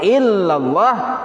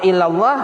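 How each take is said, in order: First: The first L sound is held long, doubled. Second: The first L sound is short, not doubled. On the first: It means 'except God'. The speaker calls it right. "Kalau illallah kecuali hanya Allah" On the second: It means 'to God'. The speaker calls it wrong. "Kalau illallah kepada Allah"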